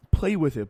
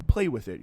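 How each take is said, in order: First: Loud, higher mocking repeat; indignant repeat. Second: Dismissive. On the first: Shown as a demonstration. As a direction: spit the quote back, disgusted. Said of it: "by the way, is a pretty bracing". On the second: Retold or imitated. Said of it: "he told me".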